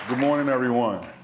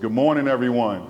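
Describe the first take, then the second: First: It is said in a plain, casual voice. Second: It is said in a commanding principal voice.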